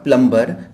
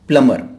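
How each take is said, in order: First: The b sound is pronounced. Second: The b sound is silent. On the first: The speaker calls it wrong. "Not प्लम्बर" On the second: The speaker calls it right. "Correct pronunciation is प्लमर"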